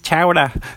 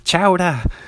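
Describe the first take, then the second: First: The word is said with a New England accent. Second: The same.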